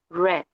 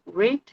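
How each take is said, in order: First: The vowel is a short eh sound. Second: The vowel is a long ee sound. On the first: The action happened in the past. "cuando decimos en pasado decimos red, como si fuera el color rojo" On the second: The action happens in the present. "Cuando nosotros lo tenemos en presente decimos read"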